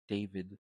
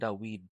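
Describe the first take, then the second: First: The middle consonant is a V sound. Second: The middle consonant is a W sound. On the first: The speaker calls it wrong. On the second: The speaker calls it right.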